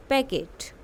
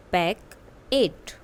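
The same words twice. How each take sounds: First: Said in the usual way. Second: "packet" drawn out, each syllable separate; slow it right down for the class; slow model word. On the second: Shown as a demonstration. (धीरे-धीरे, अलग-अलग अक्षर "packet") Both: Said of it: "listen to your teacher and say the following word".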